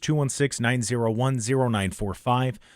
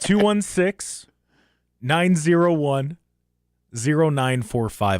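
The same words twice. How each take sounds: First: The number is said fast. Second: The number is said slowly.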